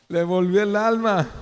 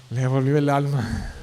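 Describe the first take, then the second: First: Le volvió el alma said higher and louder with relief; a preacher exclaiming the king's relief; relieved exclamation. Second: Said in the usual way. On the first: Shown as a demonstration.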